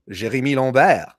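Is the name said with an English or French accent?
French. The name is said with a French accent.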